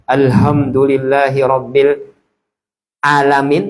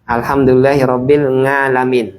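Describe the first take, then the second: First: The last word begins with a glottal stop. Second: The last word begins with an ng sound. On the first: "Bukan pakai ain tapi pakai hamzah" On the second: "Pakai eng"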